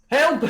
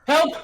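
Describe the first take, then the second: First: High, loud cry for help; shouting for help; desperate shout. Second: Said in the usual way. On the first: Acted. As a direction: yell it to the passing rider. NPC cries out for help.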